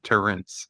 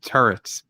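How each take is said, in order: First: It is said with an extra N sound. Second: It is said without an extra N sound. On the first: "I say it turrets with like there's a silent missing N" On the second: "It's it's pronounced turrets"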